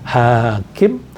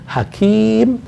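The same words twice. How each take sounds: First: The first vowel is held long. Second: The second vowel is held long. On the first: It means one who makes decisions. "kalau hakim yang panjang itu hanya hakim" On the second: It means one who is wise. "kalau hanya pendek, ki yang panjang"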